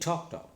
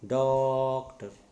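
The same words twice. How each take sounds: First: The first syllable is stressed but kept short. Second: The first syllable is drawn out long. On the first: The speaker calls it right. "I am saying doctor" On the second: The speaker calls it wrong. "you are prolonging that sound"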